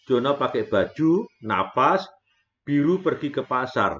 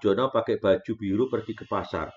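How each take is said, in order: First: There is a breath break after baju. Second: The sentence flows without a break after baju. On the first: The blue one is the one going to the market. The speaker calls it wrong. "kita menggalnya Jono pakai baju, napas" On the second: Jono wears a blue shirt and goes to the market. The speaker calls it right. "Harusnya kita menyanyi kayak tadi"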